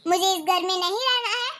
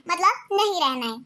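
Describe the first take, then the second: First: Said in the usual way. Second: नहीं leaned on, then a falling, final close; stress on नहीं. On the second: Acted. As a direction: put your foot down on नहीं. Repeats refusal as final.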